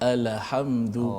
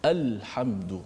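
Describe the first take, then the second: First: The L is released with a short added vowel. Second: The L is closed off with no added vowel. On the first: The speaker calls it wrong. "Yang dibaca seperti alhamdu" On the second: The speaker calls it right. "matikan betul-betul Ustaz"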